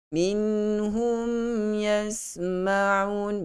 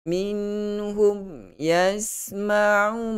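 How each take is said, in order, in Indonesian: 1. Bunyi m ditahan dengan sedikit dengung sengau. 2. Bunyi m dibaca terburu-buru dan suaranya terputus. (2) "macam cut dia punya suara"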